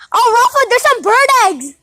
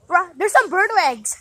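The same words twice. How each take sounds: First: Loud call across the yard. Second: Said in the usual way. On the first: Real, not acted. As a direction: shout it out to Rafa. Calling out to brother.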